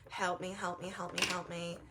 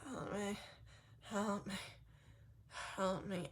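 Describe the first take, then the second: First: It is screamed loudly. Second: It is said quietly and weakly.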